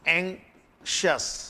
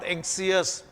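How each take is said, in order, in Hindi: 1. अंत से पहले का व्यंजन sh ध्वनि है। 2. अंत से पहले का व्यंजन s ध्वनि है। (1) "ये एंग्शियस" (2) "इट्स नॉट एंग्सियस"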